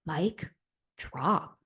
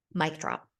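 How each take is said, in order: First: "Mic", pause, "drop", each word on its own; word-by-word emphasis. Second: Said in the usual way. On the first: Real, not acted. Vlogger applauding Janae's speech, word-by-word emphasis. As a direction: split "Mic drop" with a deliberate pause, softly.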